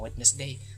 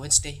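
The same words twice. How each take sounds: First: It is pronounced following its spelling. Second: It is not pronounced following its spelling. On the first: The speaker calls it wrong. "bukan Wednesday" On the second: The speaker calls it right. "padahal aslinya adalah Wednesday"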